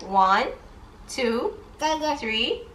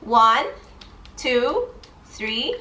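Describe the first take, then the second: No difference in how they are said.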